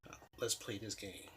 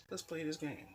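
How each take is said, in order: First: Said in the usual way. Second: Sly mock challenge. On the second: Inner thought repeated, mocking lift.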